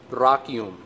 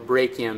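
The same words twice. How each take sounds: First: It is said with a Latin-style pronunciation. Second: It is said with an English-style pronunciation. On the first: "the Latin word for arm is brachium" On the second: "if you say it with an English accent"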